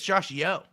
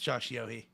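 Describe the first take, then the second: First: The surname is said as one syllable. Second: The surname is said as two syllables. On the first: The speaker calls it right. "I'm pretty sure it's" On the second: The speaker calls it wrong. "there's no way it's"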